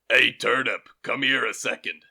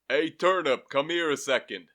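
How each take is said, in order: First: It is in a gruff voice, not New York. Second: It is in a New York accent. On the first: "It says that he's surly" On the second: "New Yorker on the subway"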